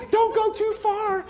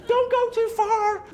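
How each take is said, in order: First: High, slow, fretting call; worried nurturing parent. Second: High, slow, fretting call repeated; worried nurturing parent. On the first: Nurturing parent calling after the wandering child, high and worried. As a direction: sing out a worried warning to the wanderer. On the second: Nurturing parent calling once more to the wandering child, high and worried. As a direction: call it again, pleading gently. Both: Acted. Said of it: "Nurturing parents going".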